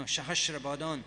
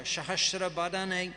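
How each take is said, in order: First: "Sahasra Badan" ending cleanly on "dan" with no final vowel; corrected pronunciation. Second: "Sahasra Badane" with an extra e sound at the end; mispronounced name. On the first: Teacher correcting his own reading for the class, "Sahasra Badan" clipped at "dan". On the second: Teacher misreading the verse in scripture class, saying "Sahasra Badane". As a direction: slip and say "Badane", not "Badan". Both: Shown as a demonstration. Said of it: "No, Sahasra Badan".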